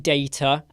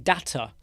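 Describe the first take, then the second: First: It is said in the speaker's own accent. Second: It is said with an American accent.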